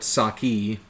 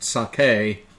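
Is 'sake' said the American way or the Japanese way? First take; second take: American; Japanese. First: The word is said in an Americanized way. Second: The word is said in a Japanese-like way. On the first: The speaker calls it wrong. "a lot of uh, dumb Americans call it sake" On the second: The speaker calls it right. "it's pronounced sake"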